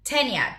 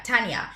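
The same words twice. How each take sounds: First: "Tanya" with an "eh" first vowel, TEN-ya; mistaken pronunciation. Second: "Tanya" with an open "ah", TAHN-ya; corrected pronunciation. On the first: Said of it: "I wanted to say Tiana, and it's not". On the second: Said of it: "it's not Tanya". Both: Shown as a demonstration.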